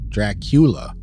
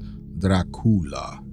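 First: The name is said with an English pronunciation. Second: The name is said with a Romanian pronunciation. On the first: "she pronounces it in English" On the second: "a Romanian would correctly pronounce it as"

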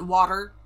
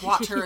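First: The middle T sound is dropped or softened. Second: The middle T sound is clearly pronounced.

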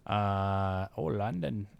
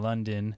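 First: The word is said in a put-on foreign accent. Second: The word is said in the speaker's normal accent.

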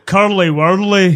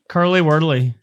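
First: It has a strong, exaggerated Scottish accent. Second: It has a mild Scottish accent. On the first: The speaker calls it right. "You want me to ramp it up?" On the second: The speaker calls it wrong. "He just did"

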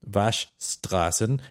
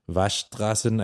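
First: Every sound in the word is said clearly. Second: The word is reduced, with one sound dropped. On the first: "a very hard word to say" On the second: "people don't pronounce it that clearly, so it's more like"

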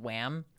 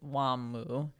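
First: It is one syllable, ending on the m. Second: It has two syllables, ending on an added u. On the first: "the namesake is the band Wham" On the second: "when you say it in Japanese, it's Wamu"

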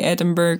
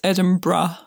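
First: The last syllable does not sound like 'bruh'. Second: The last syllable sounds like 'bruh'. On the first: The speaker calls it wrong. "you're not the first person to say Edinburgh to me either" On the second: The speaker calls it right. "It's Edinburgh. As in like you were saying, as if you were saying, what up, bruh?"

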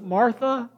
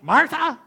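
First: It is said in a tender, gentle tone. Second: It is said in a harsh, scolding tone.

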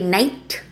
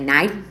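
First: The final t sound is clearly pronounced. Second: The final t sound is left off. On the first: "I won't say night" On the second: "I'll say night"

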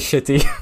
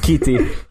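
First: The name begins with an sh sound. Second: The name begins with an sk sound. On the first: The speaker calls it wrong. "Don't say Shitty" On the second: The speaker calls it right. "It's Skeety"

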